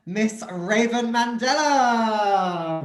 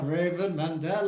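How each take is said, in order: First: Slow, drawn-out showman announcing; grand announcement. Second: Said in the usual way. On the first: Acted. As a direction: announce her like a headliner. Host announcing the star guest.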